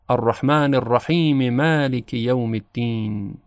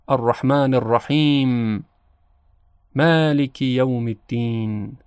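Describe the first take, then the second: First: The verses run together with a vowel after m. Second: There is a pause between the two verses. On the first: "وصل بکنیم و ... حرکت میم رحیم رو اظهار بکنیم" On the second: "بین دو آیه وقف کنیم و یک تأملی داشته باشیم"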